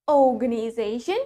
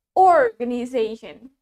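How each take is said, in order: First: Organization with a long O, no R; British "oh" opening organization; British pronunciation. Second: Organization with a sounded R; American "or" opening organization; American pronunciation. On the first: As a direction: drop the R in "organization", British style. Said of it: "In British English, we say it". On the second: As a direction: hit the R in "organization", American style. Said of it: "in American English, we say it". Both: Shown as a demonstration.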